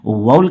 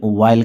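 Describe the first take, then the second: First: वाउल with an "au" glide; accepted take, वाउल as "waa-ul"; वाउल with u before the l; vowel as "vaul". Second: वायल with an "ai" glide; वायल with a y glide before l; vowel as "vail". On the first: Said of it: "फिलहाल वाउल कहेंगे". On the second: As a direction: alternative take, वायल as "waa-yal". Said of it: "या फिर वायल कहेंगे". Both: Shown as a demonstration.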